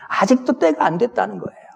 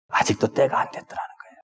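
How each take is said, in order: First: 때가 pushed out firmly, falling at the end; preacher stressing 때가 to drive home the point. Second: 아직도 때가 안 됐더라는 거예요 whispered softly, 때가 rising; preacher whispering the repeat, tail rising; hushed repeat. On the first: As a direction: lean on 때가 with a firm, falling close. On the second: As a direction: drop to a whisper and let 때가 lift. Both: Shown as a demonstration.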